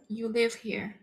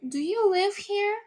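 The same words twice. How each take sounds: First: "You live here." with the voice falling at the end; teacher demonstrating a flat statement, "You live here." falling at the end; statement tune. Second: "Do you live here?" pitched high, asking; teacher demonstrating a question, "Do you live here?" sung up high; question intonation. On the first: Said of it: "That's a statement". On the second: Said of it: "You change the intonation". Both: Shown as a demonstration.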